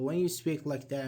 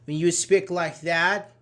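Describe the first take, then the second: First: "when you speak like that" softer, without emphasis; unengaging intonation. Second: "when you speak like that" lifted and louder; attention-getting intonation. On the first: Teacher showing students intonation that gets no attention, understated. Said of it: "it's not very attention". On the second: Teacher showing students intonation that gets attention, louder and livelier. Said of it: "it gets attention". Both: Shown as a demonstration.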